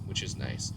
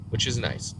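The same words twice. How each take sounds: First: Breathy whispered aside; whispering. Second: Said in the usual way. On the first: Real, not acted. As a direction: drop to a whisper. Whispered repeat of the phrase.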